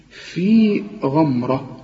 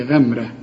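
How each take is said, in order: First: غمرة with an open ghain, slow; correct open ghain. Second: غمرة with the ghain swallowed, shown wrong; wrong ghamra. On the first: Teacher shows the right غمرة. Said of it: "اوعى تقول لي غمرة". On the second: Teacher shows the common mistake. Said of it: "اوعى تقول لي". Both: Shown as a demonstration.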